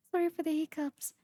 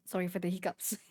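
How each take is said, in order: First: Fast apology through a laugh. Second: Soft, quick sorry; quiet apology. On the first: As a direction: giggle it out quickly. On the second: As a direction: murmur the apology. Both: Real, not acted.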